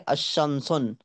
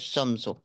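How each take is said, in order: First: The word ends with an added n sound. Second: The word ends with a plain u vowel. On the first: The speaker calls it wrong. "अलिफ लाम दाखिल करके फिर तनवीन नहीं पढ़ सकते" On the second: The speaker calls it right. "Single पेश ही लिखना है और पढ़ना भी सिंगल पेश है"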